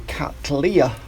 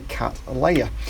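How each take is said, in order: First: The middle syllable sounds like 'lee'. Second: The middle syllable sounds like 'lay'. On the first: The speaker calls it right. "should be a Cattleya" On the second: The speaker calls it wrong. "as opposed to a Cattleya"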